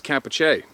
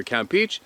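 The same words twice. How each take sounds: First: Campeche said kam-PEH-chay, falling at the end; second pronunciation. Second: Campeche said KAM-peech, rising at the end; first pronunciation. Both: Shown as a demonstration. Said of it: "It's either Campeche or it's Campeche".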